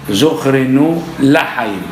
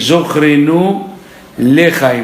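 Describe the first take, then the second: First: The second word begins with an a vowel. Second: The second word begins with an e vowel. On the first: "avec le A" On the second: "On dit Zochrenu lechaim"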